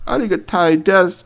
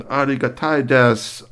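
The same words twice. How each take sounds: First: Louder, higher Japanese thanks; eager bowing robot repeat. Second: A polite Japanese thanks; Japanese robot. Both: Acted. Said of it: "speaking Japanese to you".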